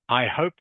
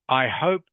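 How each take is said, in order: No difference in how they are said.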